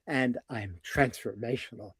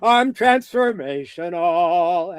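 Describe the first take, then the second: First: It is said deeper, sincerely, without exaggeration. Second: It is said wildly, with exaggeration.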